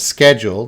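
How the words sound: It is said the American way, with a hard k. "I'm saying it like Americans, schedule. The C H has that hard K"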